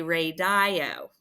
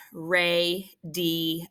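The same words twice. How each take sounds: First: "radio" with a long I, ray-die-oh; mispronounced demo. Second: "radio" slowly in three parts, ray-dee-oh; sounded out. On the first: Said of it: "because we don't say radio". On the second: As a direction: say "radio" syllable by syllable with an ee in the middle. Word sounded out by syllables. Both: Shown as a demonstration.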